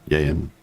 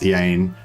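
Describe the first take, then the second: First: The name starts with a y sound. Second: The name starts with a plain vowel sound. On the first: The speaker calls it right. "sort of more like Y A Y N" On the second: The speaker calls it wrong. "it wasn't pronounced Ian"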